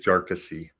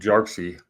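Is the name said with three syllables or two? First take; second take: three; two. First: The name is said with three syllables. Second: The name is said with two syllables. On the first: The speaker calls it right. "it's pronounced with three syllables" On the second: The speaker calls it wrong. "I've been saying it wrong for almost a year"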